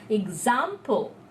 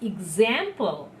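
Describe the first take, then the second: First: It is said in a British pronunciation. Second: It is said in an American pronunciation. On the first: "when we are talking about British English, we pronounce it example" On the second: "But when we tell American, it's example"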